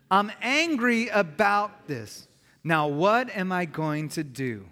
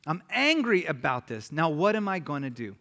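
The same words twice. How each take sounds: First: Slow, drawn-out "I'm angry about this", each word given room; leading in unison. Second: Said in the usual way. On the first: Shown as a demonstration. Preacher leads congregation saying it out loud, slow and emphatic. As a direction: say it out loud slowly and deliberately for a group to repeat. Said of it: "Can you say that out loud with me?". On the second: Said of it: "to say this out loud".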